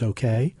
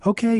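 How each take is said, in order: First: Said in the usual way. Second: High-pitched called-out reply; a mild yell, pitched well up. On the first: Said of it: "Joey's mom said". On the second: A narrator's reading. Joey answers his mom from his video game, mildly yelled. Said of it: "yelled Joey".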